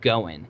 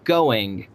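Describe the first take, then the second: First: The final G sound is dropped. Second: The final G sound is clearly pronounced. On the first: The speaker calls it wrong. "not just going" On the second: The speaker calls it right. "it has a G on the end of it"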